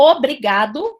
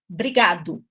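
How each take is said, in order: First: The word starts with an initial vowel sound. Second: The initial vowel is dropped; it starts with a consonant. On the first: "em vez de falar" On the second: "você fala brigado"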